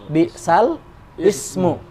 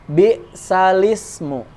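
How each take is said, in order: First: The word ismu starts separately after sal. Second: The lam carries the vowel, joining into salismu. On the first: This is the underlying written form. "Ini aslinya bi'sal ismu" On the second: This is how it is actually recited. "Tetapi dibacanya bi'salismu"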